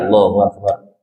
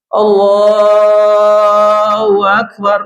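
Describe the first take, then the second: First: The phrase is said plainly without extra energy. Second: The phrase is said loudly and with great energy. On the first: "Imamnya biasa aja" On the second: "Yang heboh kan Bilalnya"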